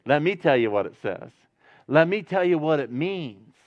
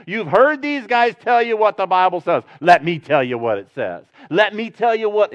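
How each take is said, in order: First: Gentle. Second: Brash tone. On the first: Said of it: "he doesn't say it with that tone". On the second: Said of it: "he doesn't say it with that tone. That's my tone". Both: Retold or imitated.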